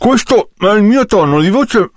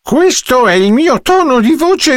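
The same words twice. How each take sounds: First: It is said as if the mouth were full. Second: It is said in an ordinary everyday voice. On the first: "come se avessi la bocca piena" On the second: "Questo è il mio tono di voce di tutti i giorni"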